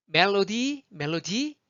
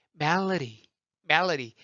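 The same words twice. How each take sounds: First: 멜로디 with every syllable clear and a hard D; evenly weighted "mel-lo-di"; Korean-style loanword. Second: 멜로디 as "MEL-luh-ree"; relaxed American melody; easy American flap. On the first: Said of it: "멜로디에 못 알아들을걸요". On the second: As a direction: stress the front of 멜로디 and tap the D. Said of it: "쭉 편해요". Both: Shown as a demonstration.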